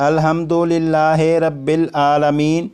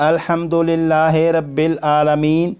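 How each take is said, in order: No difference in how they are said.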